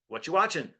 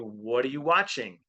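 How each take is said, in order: First: The words are reduced and run together. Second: Each word is said separately and clearly. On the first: "We say" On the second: "We don't say"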